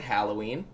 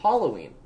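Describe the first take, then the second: First: "Halloween" with a as in cat; first-vowel variant. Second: "Halloween" with an ah, HAH-loh-ween; girlfriend's pronunciation. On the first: Reader showing own pronunciation, "Halloween" with flat-cat A. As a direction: say "Halloween" as HAL-oh-ween. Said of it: "I pronounce it Halloween". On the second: Quoting the girlfriend's version, "Halloween" with AH. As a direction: say "Halloween" starting like "holly". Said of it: "and she pronounces it". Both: Shown as a demonstration.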